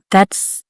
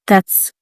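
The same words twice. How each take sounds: The two takes are said the same way.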